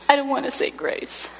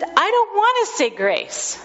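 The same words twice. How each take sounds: First: Put-on a sobbing toddler's small protest; lightly sobbing child voice; tearful child. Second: Put-on high little-boy refusal; a troubled toddler pushing back; high child voice, firm and upset. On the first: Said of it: "just sobs".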